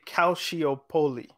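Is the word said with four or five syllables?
five. The word is said with five syllables. This is how it is said in England. "In England, they say Calciopoli"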